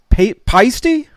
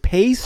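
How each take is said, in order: First: The name is said as two syllables. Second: The name is said as one syllable. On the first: The speaker calls it right. "Or pasty?" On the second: The speaker calls it wrong. "Is it paste?"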